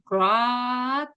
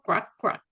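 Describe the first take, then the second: First: One drawn-out "crack"; "crack" held long as a single sound; long croak. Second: Two short, separate "crack, crack" sounds; quick double "crack", each cut short; short croaks. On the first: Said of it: "el sonido largo". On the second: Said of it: "el sonido más corto". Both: Shown as a demonstration.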